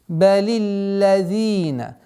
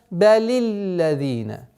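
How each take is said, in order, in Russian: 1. Первая гласная «i» короткая и ровная. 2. Первая гласная «i» короткая и ровная.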